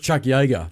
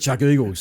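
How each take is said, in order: First: The surname starts with a 'y' sound. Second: The surname starts with a plain vowel sound. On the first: This is the actual name of the game. The speaker calls it right. "It was Chuck Yeager" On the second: This is how a schoolmate mispronounced the name. The speaker calls it wrong. "but he called it Chuck Eagles"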